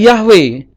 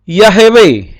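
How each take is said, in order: First: The h runs straight into the w. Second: A short vowel is sounded between h and w. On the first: The speaker calls it wrong. "Tetapi ini juga tidak bisa dibaca Yahweh" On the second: The speaker calls it right. "Tetapi Yahweh"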